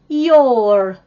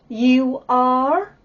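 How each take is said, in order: First: It is said as one contracted syllable. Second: It is said as two separate syllables.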